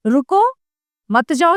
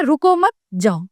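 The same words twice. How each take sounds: First: "रुको" raised, a clear pause, then "मत जाओ" as one phrase; pause after रुको. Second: "रुको मत" joined, a short pause, then "जाओ"; no break after "रुको", break after "मत" before "जाओ". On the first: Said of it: "यानी कि रुक जाओ". ("रुको" पर ठहराव, फिर "मत जाओ" एक साथ) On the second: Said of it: "चिन्ह लगने से दोनों का अर्थ". ("रुको मत" एक साथ, फिर रुककर "जाओ") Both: Shown as a demonstration.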